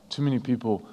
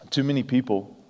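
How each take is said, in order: Both takes have the same delivery.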